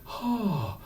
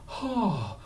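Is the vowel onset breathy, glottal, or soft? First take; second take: breathy; breathy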